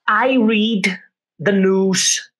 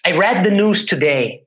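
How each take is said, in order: First: "read" said like present tense, long ee; wrong vowel in read. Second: "read" said as red, short e; corrected past-tense read. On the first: Teacher slipping, says "read" with a long ee. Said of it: "Não é I read, é read". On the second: Teacher correcting himself, "read" said as red. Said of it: "é read, desculpe". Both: Shown as a demonstration.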